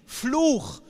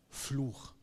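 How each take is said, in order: First: Fluch, shouted higher and louder as the final blow; preached loudly. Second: Solemn verdict. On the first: Real, not acted. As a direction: hit Fluch hard and high. Climax of preached list. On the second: Retold or imitated. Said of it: "aber Gott sagt".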